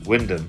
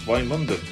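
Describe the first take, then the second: First: The name is said the local Norfolk way. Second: The name is said the non-local way. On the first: "In Norfolk it's pronounced" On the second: "that's how we pronounce it"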